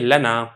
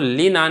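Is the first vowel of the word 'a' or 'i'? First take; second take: a; i. First: The first vowel is a. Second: The first vowel is i. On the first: The speaker calls it right. "बल्कि आप इसको पढ़ेंगे" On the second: The speaker calls it wrong. "आप इसको ली ना नहीं पढ़ेंगे"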